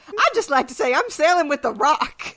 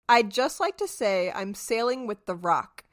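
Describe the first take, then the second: First: It is read in a calm, unthreatening tone. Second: It is read in a menacing, threatening tone. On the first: "Hers is probably like" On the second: "I'm reading it in a threatening tone"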